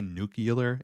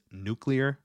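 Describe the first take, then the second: First: "nuclear" said as NOO-kyuh-ler; common mispronunciation. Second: "nuclear" said slowly as NEW-klee-er; corrected pronunciation. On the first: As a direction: swap the middle of "nuclear" to make nucular. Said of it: "Some people say nuclear". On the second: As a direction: give "nuclear" a careful klee-er ending. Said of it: "It's nuclear". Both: Shown as a demonstration.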